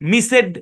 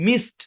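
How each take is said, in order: First: It is two syllables ending in 'ed'. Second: It is one syllable ending in a t sound. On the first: The speaker calls it wrong. "মিসেড এরকম হবে না" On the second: The speaker calls it right. "মিসড এরকম হবে"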